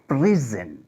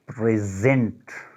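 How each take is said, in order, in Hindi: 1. Stress पहले अक्षर पर है। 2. स्ट्रेस दूसरे अक्षर पर है। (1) "पहले पे स्ट्रेस करते हैं तो ये फिर नाउन बन जाता है" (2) "दूसरे पे स्ट्रेस करते हैं तो ये बन जाता है वर्ब"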